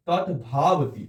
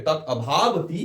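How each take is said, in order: First: "তৎভাবতি" read as one fused word, no vowel after তৎ; as written, run together. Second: "তৎ অভাবতি" split into two words, with a clear "অ" before ভাবতি; correct pronunciation. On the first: Teacher reading out the fused written form to students, run together. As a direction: say "তৎভাবতি" straight through as spelt, "tɔt-bhabti". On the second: Teacher showing students the right pronunciation, carefully split. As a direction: say "তৎ অভাবতি" as "tɔtɔ obhabti", separating the two words. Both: Shown as a demonstration. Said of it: "উচ্চারণটা এরকম হবে".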